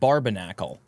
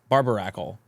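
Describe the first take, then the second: First: An 'n' sound comes before the last syllable. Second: No 'n' sound comes before the last syllable. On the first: The speaker calls it wrong. "Have I always said that wrong? I've always called it Barbarnacle" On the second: The speaker calls it right. "That's not what it's called. It's it's Barbaracle"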